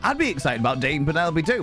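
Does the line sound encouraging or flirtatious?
encouraging. It is said in an encouraging, supportive tone. The speaker is cheering the listener on. "Or is that wingman?"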